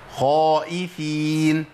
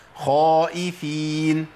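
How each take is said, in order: Both takes have the same delivery.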